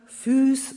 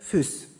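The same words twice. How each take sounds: First: The vowel is held long. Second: The vowel is cut short.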